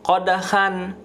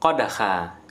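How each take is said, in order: First: The word ends with an n sound. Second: The word ends on a plain long a. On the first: The speaker calls it wrong. "Bukan qadhan" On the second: The speaker calls it right. "tetapi qadha"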